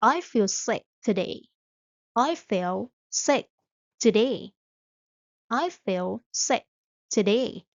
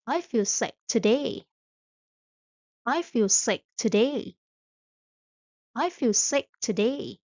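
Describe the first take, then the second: No difference in how they are said.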